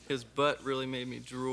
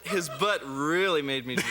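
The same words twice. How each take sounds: First: It is said flatly, without enjoyment. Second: It is said with obvious enjoyment.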